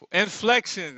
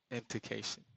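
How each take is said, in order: First: High, loud eureka on the word; triumphant find. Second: Said in the usual way. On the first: Real, not acted. Finally finding the word he was hunting for. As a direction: blurt it out as the answer clicks. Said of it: "that's what I'm talking about". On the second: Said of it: "Inflection, that's what I'm talking about".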